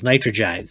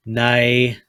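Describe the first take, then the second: First: "nitrogide" as "nai-tro-jide"; "nitrogide" in three syllables. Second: "nitride" split as "nai... tride"; "nitride" broken after "nai"; two syllables. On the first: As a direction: say "nitrogide" with the extra "jide" ending. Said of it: "gonna be three syllables". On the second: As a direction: say "nitride" in two separate syllables, with a long gap. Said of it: "Back down to two syllables". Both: Shown as a demonstration.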